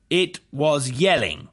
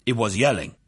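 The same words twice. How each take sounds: First: "It was yelling" repeated slowly and higher; pointed repetition. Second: Said in the usual way. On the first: A narrator's reading. Prosecutor repeats witness's words "It was yelling", slow and pointed. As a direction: spell out "It was yelling" word by word, falling at the end. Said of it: "the prosecutor repeated".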